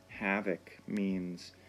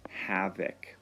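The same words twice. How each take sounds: First: Said in the usual way. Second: Breathy whisper, hushed and secret; whispered vocabulary word. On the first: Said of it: "here's another vocabulary word for you". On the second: Shown as a demonstration. Teacher introduces a vocabulary word.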